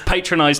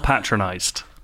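First: The first syllable sounds like the word patron. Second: The first syllable sounds like pat, the usual way. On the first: The word is built from a patron being involved. The speaker calls it right. "It's patronised, not patronised. So as in, there is a patron involved" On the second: The word means talked down to. The speaker calls it wrong. "not patronised"

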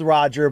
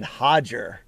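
First: The name begins with an English R sound. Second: The name begins with an H sound. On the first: "It may be spelled Roger" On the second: "but we pronounce it Hodger"

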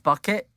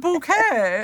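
First: It sounds like the English word bucket. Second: It sounds like the French-style word bouquet. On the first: This is the plain, actual pronunciation of the name. "And it's Bucket" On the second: This is a pretentious, fancier version of the name. "It's the French pronunciation"

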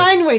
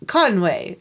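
First: It is said in a Midwestern accent. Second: It is said in a French accent. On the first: "I can only do Midwest" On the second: "He is like"

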